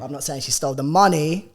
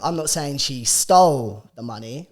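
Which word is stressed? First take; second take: money; stole. First: The word money carries the strongest stress. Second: The word stole carries the strongest stress. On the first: She stole something other than the money. "I'm saying she stole my wallet" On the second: She took it some other way than stealing. "I'm saying she borrowed the money"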